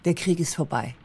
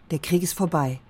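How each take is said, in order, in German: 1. Es klingt zögerlich, als würde ein 'but' folgen. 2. Es klingt nachdenklich und überrascht. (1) "klingt es so, als sei der Krieg zwar vorbei, aber" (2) "Die Verwunderung, die wir vorhin hatten, das war eine gute Richtung"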